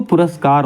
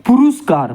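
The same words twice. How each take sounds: First: पुरस्कार said "pu-ras-kaar", a in the second syllable; correct pronunciation. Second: पुरस्कार said "pu-rus-kaar", u in the second syllable; high-pitched पुरस्कार with "rus" in the middle; wrong pronunciation. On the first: Teacher correcting students, "puraskaar" for पुरस्कार. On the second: Teacher reading out the misspelling, high "puruskaar" for पुरस्कार. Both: Shown as a demonstration. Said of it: "पुरस्कार होता है".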